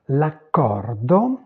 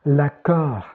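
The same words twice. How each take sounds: First: "l'accordo" very slow, final o sounded; Italian pronunciation. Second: Said in the usual way. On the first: Shown as a demonstration. Teacher repeating the corrected Italian word, Italian pronunciation. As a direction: stretch "l'accordo" right out to its o. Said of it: "j'ai oublié le O". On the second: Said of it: "quelques mots du français à l'italien".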